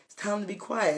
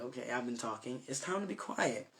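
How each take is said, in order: First: Said in the usual way. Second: Much softer, hushed reminder to yourself; softly telling yourself "It's time to be quiet"; quiet self-talk. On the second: Shown as a demonstration. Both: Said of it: "you gotta learn when to just be quiet".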